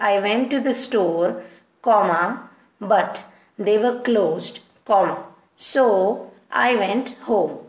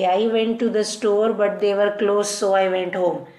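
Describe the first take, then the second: First: It has pauses between the clauses. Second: It runs on without any pauses. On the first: The speaker calls it right. "अगर comma लगा के पढ़ोगे तो it would be like" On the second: The speaker calls it wrong. "ये बिना comma के आप ऐसे पढ़ोगे"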